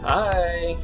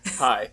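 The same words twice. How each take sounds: First: The greeting has an odd, unusual inflection. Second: The greeting has an ordinary, plain inflection. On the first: "So that was a weird hi" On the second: "but hi"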